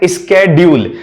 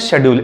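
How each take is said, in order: First: It is said the American way, starting 'sk'. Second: It is said the British way, starting 'sh'.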